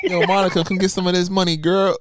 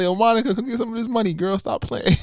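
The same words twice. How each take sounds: First: Higher, louder mock hype-man call; a touch of hammed-up flirting; imitating him hyping. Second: Higher mock streamer call; hammed-up flirty call; imitating him again. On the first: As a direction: call out like a playful streamer. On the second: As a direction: shout it playfully like him. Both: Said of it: "he does like".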